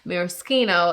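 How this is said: The word is given an Italian pronunciation. "Maraschino is the Italian pronunciation"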